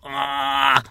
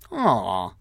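First: It sounds flat and robotic. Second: It sounds warm and soft.

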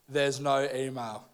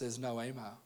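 First: It is said slowly and deliberately. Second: It is said at a normal pace.

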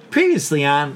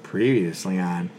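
First: It is said with lively enthusiasm. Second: It is said flat and worn down.

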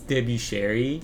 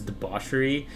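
First: The name is said as separate parts, debu cherry. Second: The name sounds like the ordinary word debauchery. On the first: The owner wants a classier-sounding name. The speaker calls it right. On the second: The name is read as it is spelled. The speaker calls it wrong. "it's not debauchery"

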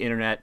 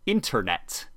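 First: The word is mumbled and not clearly enunciated. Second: The word is carefully and clearly enunciated. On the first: The speaker calls it wrong. "I didn't enunciate internet very well" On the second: The speaker calls it right. "so now internet"

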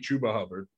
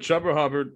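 First: The two names have different first vowel sounds. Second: Both names share the same first vowel sound. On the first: The speaker calls it wrong. "It can't be Chuba Hubbard" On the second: The speaker calls it right. "It's either Chuba Hubbard or"

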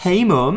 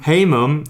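First: It is said in a cheeky tone. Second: It is said flatly, without cheek.

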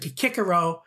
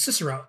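First: The name begins with a hard K sound. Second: The name begins with a soft S sound. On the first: This follows the classical Latin pronunciation. The speaker calls it wrong. "you said Kikero in a video" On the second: This follows the traditional English pronunciation. The speaker calls it right. "that's not what it is, it's Cicero"

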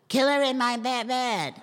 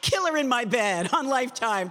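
First: The line is read in a younger-sounding voice. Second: The line is read in a playful, fun way. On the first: "Can you sound younger?" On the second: "Have fun with it"

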